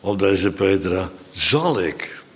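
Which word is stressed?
zal. The stress falls on the word zal. It is something that still had to happen. "Dat moest nog gebeuren"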